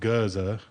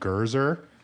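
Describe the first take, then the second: First: The word ends without an R sound. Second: The word ends with an R sound. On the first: The speaker calls it right. "which is how you would say it, um, in like a British accent, which is non-rhotic" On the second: The speaker calls it wrong. "They were saying Gurzer"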